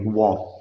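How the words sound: American style, the final T is dropped.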